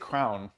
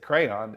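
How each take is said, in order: First: It is said as one syllable, like 'crown'. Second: It is said as two syllables, 'cray-on'. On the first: This is how the speaker's kids learned it. "They say crown" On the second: This is how the speaker says it. "I say crayon"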